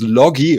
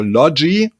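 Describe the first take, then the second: First: Logie with a hard g, as in "get"; first guess at Logie, with a hard g; hard-g pronunciation. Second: Logie with a soft g, as in "gem"; soft-g pronunciation. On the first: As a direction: say Logie as LOH-ghee. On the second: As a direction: say Logie as LOH-jee. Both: Shown as a demonstration. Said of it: "I pronounce it the right way".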